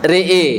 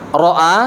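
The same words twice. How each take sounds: First: The vowel is tilted toward an 'e' sound. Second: The vowel is a plain open 'a'. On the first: "Yang kedua dibaca ra'a" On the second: "yang pertama dibaca apa tadi?"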